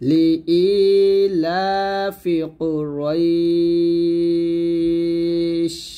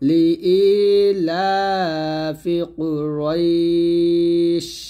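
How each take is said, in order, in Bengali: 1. শেষ শব্দটি 'sh' ধ্বনিতে হঠাৎ শেষ হয়। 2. শেষ শব্দটি 'sh' ধ্বনিতে হঠাৎ শেষ হয়।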